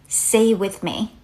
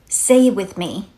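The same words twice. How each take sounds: Both takes have the same delivery.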